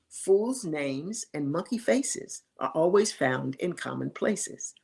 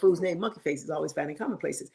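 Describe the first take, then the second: First: The saying is spoken slowly and deliberately. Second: The saying is spoken quickly and casually. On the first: "I'll say it slowly for your audience" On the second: "never said it quite that slow"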